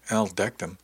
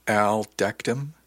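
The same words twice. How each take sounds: First: Said in the usual way. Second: Stunned, slow, rising "Al decked him?"; incredulous slow question. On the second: Acted. Ish repeats the news of Al's fight in slow disbelief. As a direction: drag it out in disbelief.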